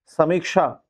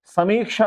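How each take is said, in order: First: समीक्षा with a short "mik"; short vowel error. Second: समीक्षा raised, with a long "meek". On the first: Teacher reading the misspelling to students, समीक्षा with short i. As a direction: say समीक्षा wrongly as "sa-mik-sha". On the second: Teacher correcting for students, समीक्षा with long ee. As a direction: lift and lengthen the mee of समीक्षा. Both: Shown as a demonstration. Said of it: "बड़ी की मात्रा लगती है".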